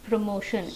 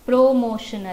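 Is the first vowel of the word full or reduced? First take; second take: reduced; full. First: The first vowel is short and reduced. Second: The first vowel is full and pressed. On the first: The speaker calls it right. "P R ಆದಮೇಲೆ ಓ ಇದೆಯಲ್ಲ ಅದನ್ನು ನಾವು ಜಾಸ್ತಿ ಒತ್ತಿ ಹೇಳೋದಿಲ್ಲ" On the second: The speaker calls it wrong. "ಪ್ರೋಮೋಷನ್ ಅಲ್ಲ"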